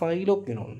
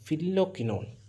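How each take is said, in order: First: The first syllable sounds like 'file'. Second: The first syllable sounds like 'fill'. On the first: "നമുക്ക് ഇഷ്ടമുള്ള രീതിയിൽ pronounce ചെയ്യാം" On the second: "നമുക്ക് ഇഷ്ടമുള്ള രീതിയിൽ പ്രൊണൗൺസ് ചെയ്യാം"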